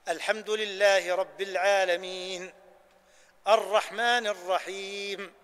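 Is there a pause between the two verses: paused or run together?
paused. There is a pause after the first verse. Each verse is given its due and stopped at its end. The speaker calls it right. "طبقنا هنا سنة إيش؟ الوقف عند رأس الآيات"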